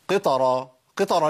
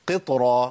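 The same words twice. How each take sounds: First: "قطرة" wrongly said "qetara"; qalqala turned to fatha. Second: "قطرة" with the ط stopped and briefly bounced; correct qalqala. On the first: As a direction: add a full "a" after the ط in "قطرة". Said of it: "ما تنفعش". ("قطرة" بفتح الطاء غلط) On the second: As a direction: keep the ط vowelless in "قطرة". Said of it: "ما أقولش". ("قطرة" بقلقلة مظبوطة) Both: Shown as a demonstration.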